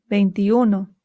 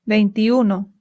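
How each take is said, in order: The two takes are said the same way.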